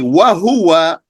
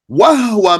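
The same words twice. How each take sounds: First: The h is followed by a vowel. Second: The h carries no vowel after it. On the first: The speaker calls it wrong. "don't say wa huwa, that actually will break the beat" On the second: The speaker calls it right. "Notice the sukoon on the hat"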